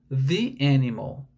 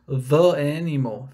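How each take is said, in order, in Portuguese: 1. A palavra 'the' termina com som de 'ee'. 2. A palavra 'the' termina com som de 'uh'. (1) "a pronúncia é com i" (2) "ficaria meio estranho e geraria até um som meio nasal"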